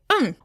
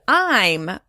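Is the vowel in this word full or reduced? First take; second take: reduced; full. First: The vowel is reduced to an indistinct sound. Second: The vowel is full and clearly pronounced. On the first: The speaker calls it right. "It sounds more like um" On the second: The speaker calls it wrong. "we don't pronounce I'm as I'm"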